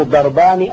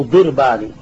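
First: ضربان with an "a" after the first consonant, darbani; fatha on the dad. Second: ضربان with an "i" after the first consonant, dirbani; kasra on the dad. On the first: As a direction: say ضربان as DAR-bani, opening vowel a. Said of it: "الفتح، ال-، الأكثر في الاستعمال". (ضربان بفتح الضاد) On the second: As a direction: say ضربان as DIR-bani, opening vowel i. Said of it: "بكسر الضاد". (ضربان بكسر الضاد) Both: Shown as a demonstration.

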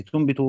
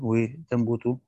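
First: تنبت as "tunbitu", u on ta, i on ba; form from anbata. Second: وتنبت as "wa tanbutu", a on ta, u on ba; form from nabata. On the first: Teacher deriving it from the augmented verb, تنبت said "tunbitu". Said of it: "من أنبت". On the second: Teacher deriving it from the simple verb, وتنبت said "wa tanbutu". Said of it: "من نبت". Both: Shown as a demonstration.

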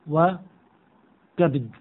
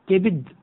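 First: وكبد said "wa... kabd", a after the k; slow, no vowel after b in وكبد; kabd form. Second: كبد said "kibd", i after the k; one syllable, no vowel after b in كبد; kibd form. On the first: Teacher shows other variant to class, pronounced kabd. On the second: Teacher shows allowed variant to class, pronounced kibd. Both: Shown as a demonstration. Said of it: "فيجوز أن نقول".

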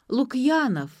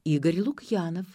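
First: «Лукьянов» higher and stronger, falling at the end; repeating the name. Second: Said in the usual way. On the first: A narrator's reading. Caller repeating «Лукьянов» to Ksyu, raised and emphatic. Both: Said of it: "повторил собеседник".

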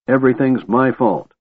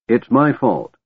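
First: Angry, leaning on "Everything's" and falling; stress on everything's. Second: Angry, leaning on "my" in "It's my fault"; stress on my. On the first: Tanis blames himself for all, stressing "Everything's". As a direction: push hard on "Everything's", higher pitch. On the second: Tanis blames himself, hitting "my" angrily. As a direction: punch "my", falling at the end. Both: A narrator's reading. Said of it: "Tanis glared at them angrily".

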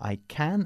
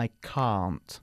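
First: "can" with a short flat A; short British can. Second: "can't" with the long open A of "car"; British can't. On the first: Teacher models British "can" against "can't" for students. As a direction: keep "can" short and flat, then contrast. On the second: Teacher models British "can't" against "can" for students. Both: Shown as a demonstration. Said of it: "yo recomiendo la forma británica".

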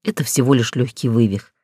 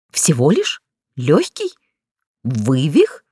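First: Said in the usual way. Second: "Всего лишь? Лёгкий? Вывих?" each a separate sharply rising question; incredulous echo. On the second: A narrator's reading. Injured heroine throws back "Всего лишь? Лёгкий? Вывих?" as rising incredulous questions. Heroine echoes his diagnosis in disbelief.

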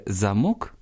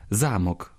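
First: "замок" stressed on "мок"; second-syllable stress. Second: "замок" stressed on "за"; first-syllable stress. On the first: Teacher naming the lock, "замок" stressed on "мок". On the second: Teacher naming the castle, "замок" stressed on "за". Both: Shown as a demonstration. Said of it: "наголос впливає на значення слова".

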